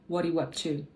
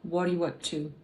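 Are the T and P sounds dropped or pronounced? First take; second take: dropped; dropped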